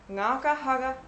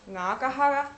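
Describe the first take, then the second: First: The final word drops to a mid tone. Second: The final word is said on a high tone. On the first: I wounded you. "«хара» спускается немного вниз. И это, на самом деле, есть средний тон" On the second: I used you. "хара — это использовал с высоким тоном"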